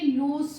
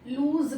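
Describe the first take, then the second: First: The word ends with a hissing s sound. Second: The word ends with a buzzing z sound. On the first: The speaker calls it right. "सा का sound आएगा" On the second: The speaker calls it wrong. "लूज नहीं, जा का sound नहीं आएगा"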